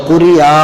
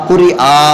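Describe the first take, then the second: Both takes have the same delivery.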